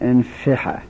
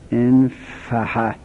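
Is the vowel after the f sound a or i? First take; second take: i; a. First: The vowel after the f is i. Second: The vowel after the f is a. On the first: "گاهی وقتا هم میگن" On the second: "همزش مکسوره، فا و هاش مفتوح"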